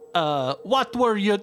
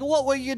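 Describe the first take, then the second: First: It is spoken in a Jamaican-sounding accent. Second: It is spoken in an Australian-sounding accent. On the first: "Nope, that was Jamaican" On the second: "Sorry, that was more Australian, I think"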